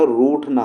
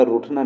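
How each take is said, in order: First: रूठना slowed, with a long "roooth". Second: रूठना with a quick "ruth" first syllable; short U. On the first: Teacher giving the correct form, long U in रूठना. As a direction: stretch the U in रूठना. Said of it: "रूठना होता है". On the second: Teacher showing the wrong form, short U in रूठना. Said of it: "रूठना नहीं होता". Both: Shown as a demonstration.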